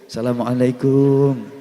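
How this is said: It sounds like a humble, deferential greeting. A respected religious teacher is being greeted. "Ketemu kiai karo bungkuk-bungkuk"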